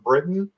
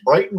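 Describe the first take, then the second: First: The first syllable sounds like 'brit'. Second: The first syllable sounds like 'bright'. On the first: The speaker calls it right. "It's literally the word Britain" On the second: The speaker calls it wrong. "My dad's Brighton Road"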